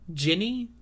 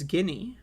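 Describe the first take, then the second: First: The name begins with a j sound. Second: The name begins with a hard g sound. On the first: The speaker calls it wrong. "there's no reason to pronounce it Ginny. That's not a name" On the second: The speaker calls it right. "her name is Guinea"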